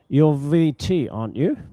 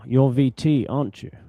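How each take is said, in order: First: The voice rises at the end. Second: The voice falls at the end. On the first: The speaker is not sure and is asking. "This means you're not sure about something" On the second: The speaker is sure and expects agreement. "this one we're falling intonation, It's when you're sure"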